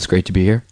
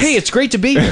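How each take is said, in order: First: It sounds warm but not overdone. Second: It sounds overly eager and pushed.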